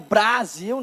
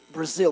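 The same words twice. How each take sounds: First: It is said the Portuguese way, with a full 'a'. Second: It is said the English way, without a full 'a'. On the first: The speaker calls it wrong. "Não é Brasil" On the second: The speaker calls it right. "Já viu um americano já pronunciando Brasil? Como é que é?"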